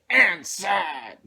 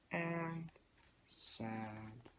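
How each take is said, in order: First: It is said loudly and forcefully. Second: It is said quietly and softly.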